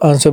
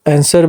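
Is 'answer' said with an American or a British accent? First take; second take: British; American. First: It is said with a British accent. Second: It is said with an American accent. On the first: "British वाले इसको आंसर बोलते हैं" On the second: "ये Americans"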